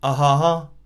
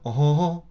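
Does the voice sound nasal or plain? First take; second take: plain; nasal. First: The sound is plain, not sent through the nose. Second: The sound is nasal, sent through the nose. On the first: "it just sounds like me going ah ha ha" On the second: "I'm putting more of the sound through my nose"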